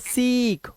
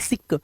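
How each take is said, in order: First: The vowel is a long ee sound. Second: The vowel is a short i sound. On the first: The speaker calls it right. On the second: The speaker calls it wrong.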